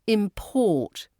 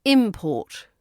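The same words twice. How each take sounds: First: ImPORT, stress at the end; stress on second syllable. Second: IMport, first syllable stressed. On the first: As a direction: say "Import" as the verb, im-PORT. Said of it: "But as a verb". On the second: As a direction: say "import" as the noun, IM-port. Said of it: "As the noun". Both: Shown as a demonstration.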